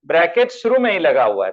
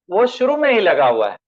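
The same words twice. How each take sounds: First: शुरू pressed a little harder with a falling end; stress on शुरू. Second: Said in the usual way. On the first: Shown as a demonstration. Teacher stressing शुरू for students. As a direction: lean on शुरू to drive the point home.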